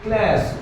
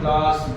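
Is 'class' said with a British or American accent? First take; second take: American; British. First: The vowel is a flat 'a' as in 'cat'. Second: The vowel is a broad 'ah' sound. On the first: "और लोग क्या बोलते हैं" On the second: "इसीलिए हम लोग क्या बोलते हैं"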